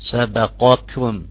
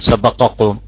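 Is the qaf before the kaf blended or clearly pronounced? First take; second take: clear; blended. First: A full, heavy qaf is heard before kaf. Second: The qaf blends into the following kaf. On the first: The speaker calls it right. "نجيب قاف مستعلية وبعدين نجيبها من عند اللهاء" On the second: The speaker calls it wrong. "ما نقول سبقكم"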